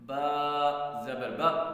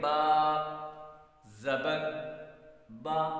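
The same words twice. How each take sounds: First: The vowels are cut off abruptly with a jerk. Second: The vowels are soft and of moderate length. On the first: The speaker calls it wrong. "झटका देना क्या होता है" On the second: The speaker calls it right. "मारूफ नरम करके आप उसको पढ़ेंगे"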